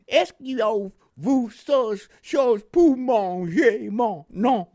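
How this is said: It is spoken with a Mississippi Southern accent.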